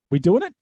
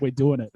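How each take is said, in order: First: "We doing it?" higher and louder, rising at the end; questioning. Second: "We're doing it." as a statement, falling at the end; confirming. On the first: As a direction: check with your partner, lifting "it". Retold question to his co-commentator. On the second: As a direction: settle it, letting "it" drop. Co-commentator's retold confirming answer. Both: Retold or imitated.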